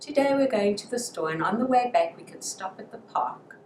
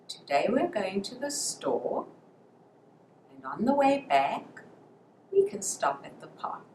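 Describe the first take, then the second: First: It is said quickly without pauses between phrases. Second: It is said slowly with pauses between phrases. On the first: The speaker calls it wrong. "instead of saying" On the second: The speaker calls it right. "pause at natural pauses in the sentences"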